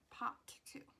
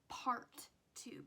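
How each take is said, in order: First: It is said Boston-style, with the r dropped. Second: It is said plainly, with the r sounded. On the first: "Boston type accent" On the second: "if you speak normally"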